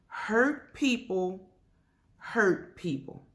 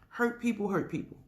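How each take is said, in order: First: It is said more slowly. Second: It is said at a normal pace.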